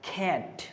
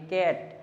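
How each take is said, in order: First: The first k is breathy, with a strong puff. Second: The first k is plain, without a puff of air. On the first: "বিদেশিরা এই কটাকে তারা উচ্চারণ করে হচ্ছে খ" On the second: "অনেকে বলবে এটা কি কাট নাকি ক্যাট"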